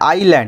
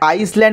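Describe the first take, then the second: First: No s sound is pronounced in the middle. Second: An s sound is pronounced in the middle. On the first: The speaker calls it right. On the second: The speaker calls it wrong. "ওটাকে আইসল্যান্ড বলবে না"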